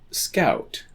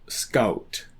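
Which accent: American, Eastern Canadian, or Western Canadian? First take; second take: American; Western Canadian. First: Said in an American accent. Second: Said in a Western Canadian accent.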